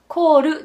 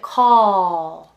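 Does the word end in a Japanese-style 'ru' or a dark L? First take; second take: ru; dark L. First: The word ends with a Japanese-style 'ru' sound. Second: The word ends with a hollow, dark L sound. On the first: The speaker calls it wrong. "Call ではなくて" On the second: The speaker calls it right. "call ってちょっと口に空洞を作ってあげる感じね"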